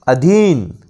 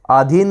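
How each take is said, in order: First: अधीन with a short opening "a"; correct अधीन. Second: आधीन with a long opening "aa"; mispronounced आधीन. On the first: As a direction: say अधीन as a-DHEEN. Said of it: "अधीन होगा". (अधीन में छोटा 'अ' बोलें) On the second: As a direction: say आधीन as AA-dheen. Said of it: "आधीन नहीं". (आधीन में लंबा 'आ' बोलें) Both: Shown as a demonstration.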